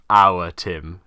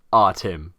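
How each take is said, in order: First: "our" drawn out in two syllables, "ow-er"; southern our. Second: "our" said as a short single-syllable "ar", low; northern our. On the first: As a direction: say "our Tim" stretching "our" into "ow-er". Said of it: "rather than". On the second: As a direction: say "our Tim" with a clipped northern "ar". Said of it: "it should really be pronounced". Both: Shown as a demonstration.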